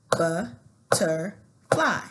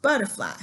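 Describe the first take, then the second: First: "Butterfly" very slow, in three separate beats; "Butterfly" broken by clear pauses between syllables. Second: Said in the usual way. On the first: Shown as a demonstration. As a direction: stomp out each syllable of "Butterfly". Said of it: "stump it out". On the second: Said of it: "Now I'm gonna try it".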